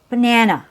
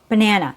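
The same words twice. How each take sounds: First: The first and last vowels are weak and reduced. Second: The same.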